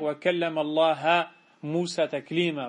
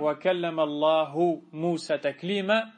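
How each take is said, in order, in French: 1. Le mot Allah se termine par la voyelle a. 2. Le mot Allah se termine par la voyelle u. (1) "Ils ont changé une voyelle sur la lettre" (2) "Il ne faut pas lire"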